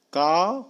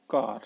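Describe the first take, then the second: First: का with no R, open aa; British R-less का. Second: कार with the R sounded at the end; American R in कार. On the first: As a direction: leave the R off: का. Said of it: "British वाले र का pronounce ही नहीं करते". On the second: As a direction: roll into the R of कार. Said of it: "American करते हैं". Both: Shown as a demonstration.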